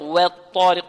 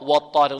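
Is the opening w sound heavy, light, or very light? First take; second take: very light; heavy. First: The opening w sound is exaggeratedly thin. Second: The opening w sound is thick and heavy. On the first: "ولا نبالغ في ترقيق الواو، لا نقول والطارق" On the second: "لا نقول والطارق و والطارق نفخم الواو"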